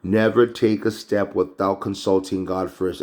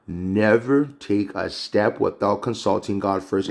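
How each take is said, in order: First: Said in the usual way. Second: Slow, deliberate "Never take a step"; emphatic repeat. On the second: Real, not acted.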